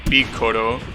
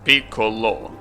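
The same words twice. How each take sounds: First: The middle consonant is an R sound. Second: The middle consonant is an L sound. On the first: "they don't differentiate between the L sound and the R" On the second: "with like an L sound"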